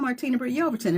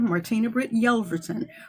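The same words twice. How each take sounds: First: The name is rushed through quickly. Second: The name is said slowly and carefully. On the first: Listeners may not catch the name to find it. The speaker calls it wrong. "If I pop right on past that" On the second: Listeners can catch the name and find it. The speaker calls it right. "I take the opportunity to pronounce it correctly"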